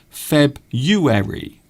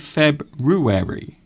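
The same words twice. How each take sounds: First: Some sounds in the middle are dropped. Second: Every sound in the word is pronounced. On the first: "Some people say February" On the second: "I like to say February. You see, because that's how it's spelt"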